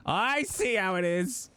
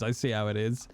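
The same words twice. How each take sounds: First: Higher, slower, in a hammed-up huff; drawn-out pretend indignation; mock offended. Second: Said in the usual way. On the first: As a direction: play wounded pride for laughs.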